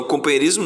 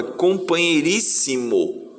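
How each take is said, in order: First: "companheirismo" ending in -ismo, run together; mistaken word ending. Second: "companheiríssimo" slower, with a full -rís-si-mo ending; corrected word ending. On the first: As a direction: say "companheirismo" quickly with a closed -izmo ending. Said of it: "não, companheirismo não". ("companheirismo" com final -ismo, sem separar) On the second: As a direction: stretch "companheiríssimo", every final syllable sounded. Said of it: "é companheiríssimo". ("companheiríssimo" devagar, com -ís-si-mo bem claro) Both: Shown as a demonstration.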